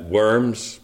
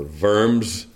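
First: Said in the usual way. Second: Worms said with an initial V sound, like "Vorms"; "Worms" pronounced the German way, V for W; German-style pronunciation. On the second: Shown as a demonstration. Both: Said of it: "as it's sometimes pronounced".

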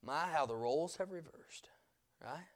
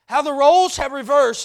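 First: Hushed, whispered wonder; soft whispered aside. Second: Louder ringing repeat; loud preaching repeat; proclaimed. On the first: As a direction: breathe it like a secret. Whispered, then said aloud. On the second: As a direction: declare it to the room. Loud repeat of the whispered line. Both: Real, not acted.

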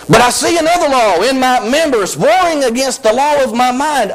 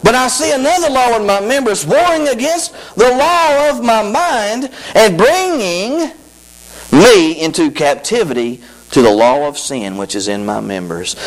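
First: High, intoned scripture read. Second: High, slowed, intoned verse; scripture reading again. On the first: Preacher reading verse to congregation, high intoned. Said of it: "Look at verse twenty-three". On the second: Preacher rereading verse, slower and intoned. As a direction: draw out the verse with emphasis. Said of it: "He said it". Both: Shown as a demonstration.

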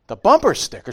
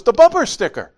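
First: Surprised. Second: High, loud reminder; urgent daughter. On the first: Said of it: "And I'm like". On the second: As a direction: hiss the warning to dad. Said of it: "She goes". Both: Retold or imitated.

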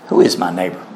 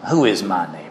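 First: Sarcastic question. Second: Low, mocking sneer on who; sarcastic question. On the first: Retold or imitated. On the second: Preacher voicing the smug lawyer, sarcastic. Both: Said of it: "You can almost hear the sarcasm".

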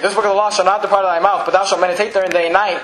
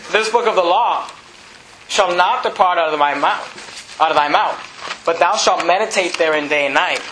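First: Brisk run through the verse; quick re-reading. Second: Slow, measured scripture reading; deliberate verse reading. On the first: Preacher re-reading after correcting the verse number, brisk. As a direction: rattle through the scripture without lingering. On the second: Preacher reading Joshua's promise to church, slow and deliberate. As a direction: read it out slowly, phrase by phrase. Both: Real, not acted.

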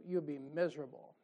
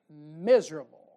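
First: Said in the usual way. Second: Miserable said louder and slower; miserable stressed. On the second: Shown as a demonstration. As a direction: punch out the word miserable. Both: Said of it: "repeated for emphasis".

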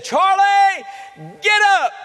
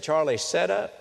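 First: Very high, loud command thrown at the bed; commanding shout. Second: Said in the usual way. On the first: Retold or imitated. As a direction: call him up as if he must obey. Mother commands dead son rise. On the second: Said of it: "Joe Henry said".

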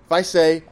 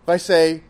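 The two takes are said the same way.

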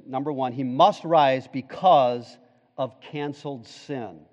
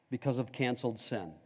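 First: Said in the usual way. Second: Hushed repeat. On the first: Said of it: "first point stated then repeated". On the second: Shown as a demonstration. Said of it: "repeated point, hushed".

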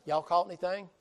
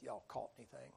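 First: Southern Jesus calling out loud from the shore; a loud Southern "Y'all caught anything?" shouted across the water. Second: Peter's soft, sour grumble of "Y'all caught anything?"; a sulky, much softer "Y'all caught anything?" under the breath; grumbled under breath. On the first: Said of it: "He's a Southern Jesus". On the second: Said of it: "Peter grumbles under his breath". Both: Acted.

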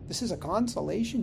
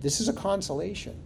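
First: "consolation" rises high, quick and disbelieving; incredulous. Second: "consolation" falls, firm and settled; flat affirmation. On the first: Retold or imitated. Imagined congregant doubting the pastor, incredulous rise. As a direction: ask it fast as if you can't believe it. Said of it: "Did you just say that, Pastor?". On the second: Shown as a demonstration. Pastor answering the doubting listener, firm fall. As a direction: state it flatly, no question left. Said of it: "Yes, I did".

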